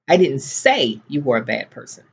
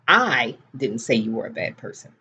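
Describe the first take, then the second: First: The stress falls on the word say. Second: The stress falls on the word I. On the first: It was thought but not said. "but I was thinking it" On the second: Someone else said it. "Somebody else said it"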